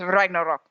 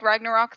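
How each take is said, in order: First: The name is pronounced the Norse way. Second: The name is pronounced the English way. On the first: The speaker calls it right. "I should be saying it properly" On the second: The speaker calls it wrong. "I'm not saying it in, like, the Norse tongue"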